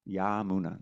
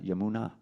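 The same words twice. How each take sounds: First: An A vowel in the word is held long. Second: The A vowels in the word are all short. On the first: It means of the Yamuna, as in its bank. The speaker calls it right. "that long A is of Vasudev and of the Yamuna" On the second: It simply names the Yamuna River. The speaker calls it wrong. "Yamuna is when you're just speaking about Yamuna River"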